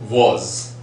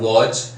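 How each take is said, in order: First: The word ends with a 'z' sound. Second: The word ends with a 'j' sound. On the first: The speaker calls it right. "it is Z" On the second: The speaker calls it wrong. "it's not waj"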